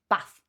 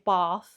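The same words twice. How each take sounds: First: It is said with a northern English accent. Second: It is said with a southern English accent. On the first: "northerner, bath" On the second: "if you're a southerner, you will say bath"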